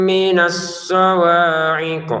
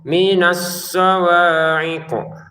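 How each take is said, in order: No difference in how they are said.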